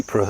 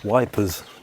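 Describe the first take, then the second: First: The name begins with a vowel sound. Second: The name begins with a 'w' sound. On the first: This is how people say the name today. "as we pronounce it" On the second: This is what soldiers in the war called it. "British soldiers at the time called it wipers"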